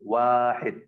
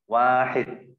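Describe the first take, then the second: First: The first vowel is long. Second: The same.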